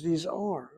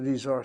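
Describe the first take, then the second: First: The word 'are' is said with strong stress. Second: The word 'are' is said without special stress. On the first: It insists that these really are the thing named. "really emphasizing" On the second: It is a plain statement. "Not simply"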